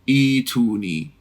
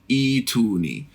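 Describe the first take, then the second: No difference in how they are said.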